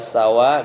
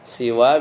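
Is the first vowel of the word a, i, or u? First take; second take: a; i. First: The first vowel is an a sound. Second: The first vowel is an i sound. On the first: "Kadang dibaca sawaun seperti sama" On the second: "kadang dibaca siwa itu seperti ridon"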